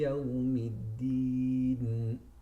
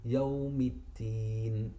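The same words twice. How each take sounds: First: The last syllable is said with a d sound. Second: The last syllable is said with a t sound. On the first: The speaker calls it right. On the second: The speaker calls it wrong.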